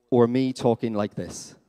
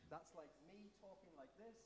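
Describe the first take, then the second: First: Booming loud and slow. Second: Soft whisper, barely voiced. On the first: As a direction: crank the volume right up, like an amplifier. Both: Shown as a demonstration.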